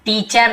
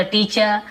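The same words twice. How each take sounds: First: "टीचर" with a full final R; R pronounced. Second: "टीचर" ending in a plain vowel, no R; silent R. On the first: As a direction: say "टीचर" sounding out the R at the end. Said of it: "ना बोलते". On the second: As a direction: say "टीचर" as "tee-chuh". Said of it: "ना बोलते टीचर". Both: Shown as a demonstration.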